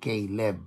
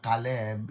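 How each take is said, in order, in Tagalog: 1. Binibigkas ang pangalan sa paraang Amerikano. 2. Binibigkas ang pangalan sa paraang parang Hebreo. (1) "Pagka Caleb, Amerikano nagsasabi nun eh" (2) "Caleb is actually more Hebraic in pronunciation"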